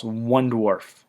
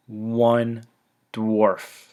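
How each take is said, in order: First: Said in the usual way. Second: "One dwarf" as two separate words, a pause between; emphatic repetition. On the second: Real, not acted. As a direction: let "One" and "dwarf" each land alone. Repeats the tiny loss for emphasis.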